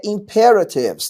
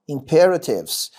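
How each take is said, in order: First: Said in the usual way. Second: Imperatives said slowly, leaning on ra; teacher slowly showing the stress in Imperatives; stress on the syllable ra. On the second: Shown as a demonstration. Teacher showing students where Imperatives takes its stress, slow and stressed. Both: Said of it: "Com essa sílaba tônica aqui".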